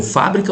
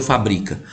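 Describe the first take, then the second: First: "fábrica" stressed on FÁ; stress on first syllable. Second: "fabrica" stressed on BRI; stress on second syllable. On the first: Teacher quizzing students on a reading, "fábrica" stressed on FÁ. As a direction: say "fábrica" as FÁ-bri-ca. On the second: Teacher offering the other reading, "fabrica" stressed on BRI. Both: Shown as a demonstration. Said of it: "Como é que você leu?".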